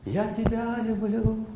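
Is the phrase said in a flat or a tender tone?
tender. It is said tenderly, with warm feeling. The speaker recalls a loved one while saying it. The speaker calls it right. "если человек вспоминает первую встречу, глаза, вспоминает лицо близкого человека и говорит"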